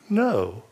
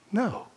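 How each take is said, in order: First: It is said a little louder. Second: It is said quietly and sheepishly.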